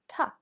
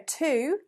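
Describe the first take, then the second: First: The vowel is reduced to a weak schwa. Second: The vowel is a full, clear oo sound. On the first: "when we weaken this word, this preposition, we use the schwa" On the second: "ordinarily, to sounds exactly like that"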